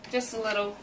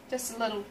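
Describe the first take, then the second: No difference in how they are said.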